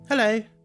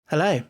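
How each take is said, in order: First: It is said in a camp, theatrical way. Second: It is said in a plain, natural way.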